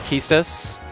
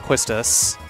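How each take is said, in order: First: The name begins with a plain k sound. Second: The name begins with a kw sound. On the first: The speaker calls it right. "it is pronounced Quistis" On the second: The speaker calls it wrong. "and not Quistis"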